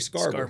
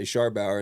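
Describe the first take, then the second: First: The name is said the short Texan way. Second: The name is said the full, spelled-out way. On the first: This is the local form adopted to sound Texan. "in Midland... we say Scarber... Texas way of saying it" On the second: This is the form used outside the hometown. "outside of Midland, if I make a dinner reservation, I say Scharbauer"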